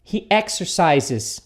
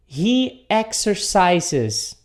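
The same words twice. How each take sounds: First: He exercises at a more natural pace, with a clear final S; model pronunciation. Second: He exercises, spelled out very slowly with a clear final S; slow model sentence. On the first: (pronúncia mais natural de "exercises") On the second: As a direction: drag out every syllable of exercises. (pronúncia bem lenta de "exercises") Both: Shown as a demonstration. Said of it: "um som de S".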